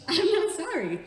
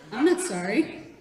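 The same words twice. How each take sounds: First: High, loud insistence; defiant raised-voice insistence; emphatic defiance. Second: Said in the usual way. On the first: Real, not acted. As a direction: say it higher and louder, unapologetic. Repeats it more emphatically.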